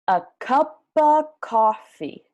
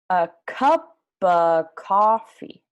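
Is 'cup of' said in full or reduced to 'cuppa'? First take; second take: reduced; reduced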